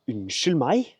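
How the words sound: It sounds offended and indignant.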